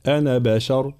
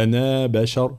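First: أنا بشر with a short final "ana"; madd dropped. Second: أنا بشر with a long "anaa"; wrongly kept madd. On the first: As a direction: clip the last vowel of أنا before بشر. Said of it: "نحذف المد". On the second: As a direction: stretch the final vowel of أنا before بشر. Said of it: "نحذف المد، فلا نقول". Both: Shown as a demonstration.

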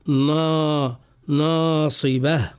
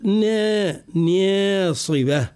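First: ناصبة with a thin, light نا, drawn out slowly; correct light nun. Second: ناصبة with نا pitched up and thickened, leaning toward emphatic; wrong heavy nun. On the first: Teacher showing the correct light nun in ناصبة. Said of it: "نقول". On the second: Teacher demonstrating the mistaken heavy nun to avoid. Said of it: "ولا نقول". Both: Shown as a demonstration.

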